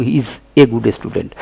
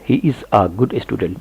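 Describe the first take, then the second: First: "a good" said wrongly as "ay good"; slow sentence with "a" as a full ay. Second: "a good" said "uh good", slowly; slow, softer model sentence with "a" as uh; a as short "uh". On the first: Teacher quoting what many people say, ay pronunciation. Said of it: "हमको ए नहीं बोलना है". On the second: Teacher modelling the right article, short uh pronunciation. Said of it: "हमको अ बोलना है". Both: Shown as a demonstration.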